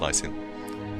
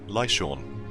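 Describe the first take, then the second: First: The last syllable does not sound like 'Sean'. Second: The last syllable sounds like 'Sean'. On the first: "I think that's how it's pronounced" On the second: "like, you know, Sean Bean"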